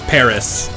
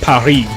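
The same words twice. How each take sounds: First: It is said with an English pronunciation. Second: It is said with a French pronunciation. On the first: The speaker uses the usual English form. The speaker calls it right. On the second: The speaker is showing off knowledge of the original language. The speaker calls it wrong.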